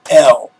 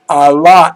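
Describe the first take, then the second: First: The name is said as one syllable. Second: The name is said as two syllables. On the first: The speaker calls it wrong. "it's not El" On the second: The speaker calls it right. "That's the proper Hebrew pronunciation of it"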